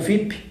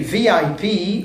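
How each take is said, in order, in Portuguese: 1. É dito com pronúncia do português brasileiro. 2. É dito com pronúncia inglesa.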